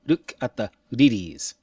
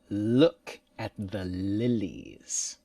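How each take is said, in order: First: The L sounds are quick tongue taps. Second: The L sounds are long and held. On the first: The speaker calls it wrong. "That's just a quick touch. Mm, that's very fast" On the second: The speaker calls it right. "The English one is longer"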